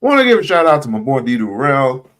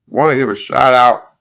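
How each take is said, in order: First: Said in the usual way. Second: Talking with a mouthful; words around a bite of food; mouth full. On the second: Real, not acted. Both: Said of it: "I got something in my mouth".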